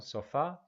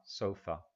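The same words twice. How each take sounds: First: "Sofá" stressed on the last syllable, so-FA; Spanish stress. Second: "sofa" stressed on the first syllable, SO-fa, falling; English stress. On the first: Teacher contrasting the Spanish word: "Sofá" stressed at the end. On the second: Teacher modelling the English: "sofa" stressed on SO. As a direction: say "sofa" the English way, weight up front. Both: Shown as a demonstration. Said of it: "Nota la diferencia de entonación".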